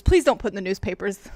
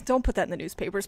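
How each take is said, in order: First: Begging louder, stress on please; louder pleading. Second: Said in the usual way. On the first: Shown as a demonstration.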